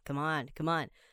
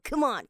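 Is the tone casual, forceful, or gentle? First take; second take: casual; forceful. First: It is said in a relaxed, offhand tone. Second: It is said forcefully from the core. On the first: Egging a friend on to have a drink. "你可以比较随意一点、随性一点" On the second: Urging a teammate to hurry and try harder. "用你肚子那个丹田力量哈……用力去发声"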